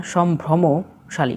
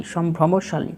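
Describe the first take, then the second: First: "সম্ভ্রমশালী" drawn out as shom-bhromo, then shali; corrected slowly. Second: Said in the usual way. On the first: Shown as a demonstration. Teacher corrects the word for learners, slowly broken up. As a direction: break "সম্ভ্রমশালী" slowly into its parts. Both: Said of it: "সম্ভ্রান্ত হবে না".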